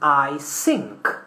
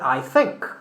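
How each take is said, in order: First: Think begins with an s or f sound. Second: Think begins with a th sound. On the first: This is how a learner might say it. The speaker calls it wrong. "learners of English saying I think" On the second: This is what the learner intends to say. The speaker calls it right. "meaning I think"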